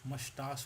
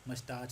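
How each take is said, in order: First: The 'ch' is said like a soft sh. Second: The 'ch' is said like the ch in chair. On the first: The speaker calls it right. "ये मस्टास होता है" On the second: The speaker calls it wrong. "मस्टाच वस्टाच कुछ नहीं होता"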